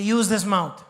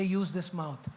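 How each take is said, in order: First: Said out loud and firm; firm spoken declaration; louder declaration. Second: Said in the usual way. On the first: Shown as a demonstration.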